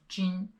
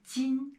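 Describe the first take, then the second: First: 今 said with the middle of the tongue rolled up, sounding like zhin; 今 with a rolled tongue, deliberately slowed, as the mistake; wrong 今. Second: 今 said with a flat tongue, clean jin; 今 with no roll of the tongue, a higher clean jin; correct 今. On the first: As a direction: curl the tongue when saying 今, the wrong way. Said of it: "If you're saying 今 is not correct". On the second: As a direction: keep the tongue flat for 今, the right way. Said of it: "You can hear the difference here". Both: Shown as a demonstration.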